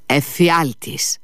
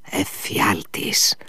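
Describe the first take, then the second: First: Slow, higher outcry on εφιάλτης; the commander cries εφιάλτης aloud; raised cry. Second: Slow, whispered dread; the commander whispers Εφιάλτης in horror; hoarse whisper. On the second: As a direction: breathe the word out slowly. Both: A narrator's reading. Furious old commander.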